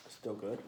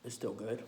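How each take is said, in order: Both takes have the same delivery.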